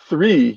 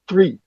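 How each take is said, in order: First: It begins with a soft th sound. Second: It begins with a hard t-like sound. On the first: The speaker calls it right. "instead of saying three" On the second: The speaker calls it wrong. "you'll say three"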